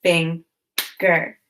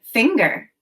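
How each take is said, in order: First: "Finger" split into two syllables with a long pause between; "Finger" broken as fing... ger; chopped syllables. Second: Said in the usual way. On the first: Shown as a demonstration. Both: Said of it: "Now chop the syllables in finger".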